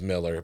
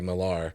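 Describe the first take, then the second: First: The second syllable is reduced and weak. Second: The second syllable is fully pronounced. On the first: This is how the man himself prefers it. The speaker calls it right. "think he prefers Miller" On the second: This is how many people say it. The speaker calls it wrong. "I know people overpronounce it"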